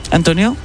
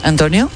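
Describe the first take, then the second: No difference in how they are said.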